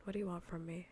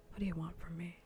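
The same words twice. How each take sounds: The two takes are said the same way.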